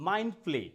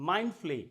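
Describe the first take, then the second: No difference in how they are said.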